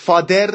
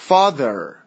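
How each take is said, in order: First: "father" said as "fader"; mispronounced th. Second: "father" with th between d and z; correct voiced th. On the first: Teacher showing what is wrong, "father" with a d. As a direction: put a hard d in the middle of "father". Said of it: "father نیست". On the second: Teacher modelling the word for learners, voiced th in "father". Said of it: "یه چیزی بین د و ز". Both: Shown as a demonstration.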